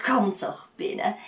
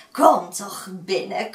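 First: Coaxing invitation, falling at the end; sweet come-in call closing down; inviting old woman. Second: Coaxing invitation, rising at the end; slow, sweet come-in call; inviting old woman. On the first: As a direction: settle the invitation warmly. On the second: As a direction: lure them in sweetly. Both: Acted. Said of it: "Gelukkig sprak ze vriendelijk".

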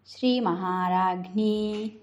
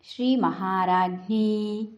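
Both takes have the same delivery.

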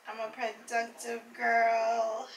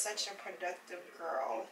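First: Slow, sing-song self-praise; drawn-out repeat. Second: Said in the usual way. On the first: Real, not acted. Vlogger praising herself after editing, slow and sing-song.

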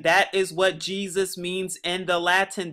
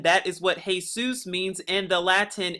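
First: Said in the usual way. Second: "Jesus" said as hay-soos; Latin pronunciation of Jesus. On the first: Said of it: "you can also pronounce Jesus as Jesus". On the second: Shown as a demonstration. Teacher repeating the point with the Latin form, "Jesus" as hay-soos. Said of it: "pronounce Jesus as Jesus in the Latin".

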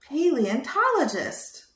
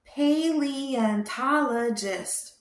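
First: Said in the usual way. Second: Slow syllable by syllable "Paleontologist"; slow careful word. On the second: Shown as a demonstration. Teaching a child the word, slow and careful. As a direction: spell out "Paleontologist" slowly for a child. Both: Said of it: "Can you say that?".

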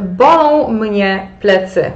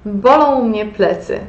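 First: Slow and deliberate, leaning on "Bolą"; slow teacher prompt with a falling end; slow quiz prompt. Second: Said in the usual way. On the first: Shown as a demonstration. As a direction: read "Bolą mnie plecy" slowly with the weight on "Bolą", like a quiz prompt. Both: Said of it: "Jak powiecie po niemiecku".

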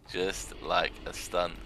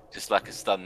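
First: Very slow and deadpan, each word spaced; slow sarcastic echo of the line before; slow dry repeat. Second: Said in the usual way. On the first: Acted. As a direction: drag it out to land the joke. Repeats the phrase for effect.

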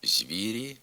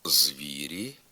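First: «звірі» with з palatalized before ві; softened з. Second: «звірі» with з hard before ві, rising end; as written. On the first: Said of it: "а вимовляємо". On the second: Teacher reading the spelling, hard з in «звірі». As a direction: say «звірі» with an unsoftened з. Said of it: "Пишемо". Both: Shown as a demonstration.

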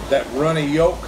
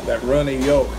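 The two takes are said the same way.

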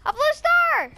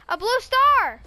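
First: Higher, bigger excited shout; more excited. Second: Thrilled shout at a find; excited. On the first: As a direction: top the first call with more thrill. Repeat, higher and louder. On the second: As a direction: announce the discovery eagerly. Excited find, repeated louder. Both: Real, not acted.

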